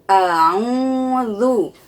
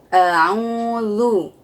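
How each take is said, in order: The two takes are said the same way.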